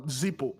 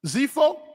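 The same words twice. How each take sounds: First: "Zippo" said with a p, ZEE-poh; p pronunciation. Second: "Zippo" said with an f, ZEE-foh; f pronunciation. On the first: Teacher recalling his earlier name, "Zippo" with a p sound. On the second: Teacher correcting the name, "Zippo" with an f sound. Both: Shown as a demonstration. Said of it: "I was calling Zippo".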